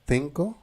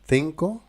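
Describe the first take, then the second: No difference in how they are said.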